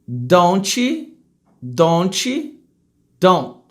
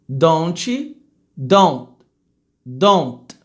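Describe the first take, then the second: Both takes have the same delivery.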